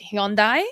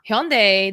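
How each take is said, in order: First: It is said with the Singaporean pronunciation. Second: It is said with the American pronunciation. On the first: "In Singapore, this is how we pronounce car brands" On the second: "the way y'all in America pronounce it is so weird"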